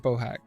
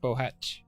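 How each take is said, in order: First: The name ends with a hard k sound. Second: The name ends with a ch sound. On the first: "I don't know if I'm saying that right" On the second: "Has it got a ch? Is it like Bohatch?"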